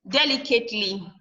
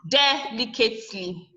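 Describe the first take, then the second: First: The stress falls on the third syllable. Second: The stress falls on a different syllable. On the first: The speaker calls it right. "You stress it at the third syllable" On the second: The speaker calls it wrong. "Not delicately"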